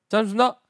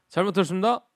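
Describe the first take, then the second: First: The phrase is clipped with syllables dropped. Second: The phrase is said somewhat shorter. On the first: The speaker is a corporal. "상병으로 가게 되면" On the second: The speaker is one rank higher. "1병으로 가게 되면"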